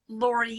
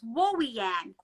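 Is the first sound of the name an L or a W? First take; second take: L; W. First: The name starts with a clear L sound. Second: The L sounds are replaced by W sounds. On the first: "You know me as my first name as Lorianne" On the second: "I couldn't pronounce the letter L"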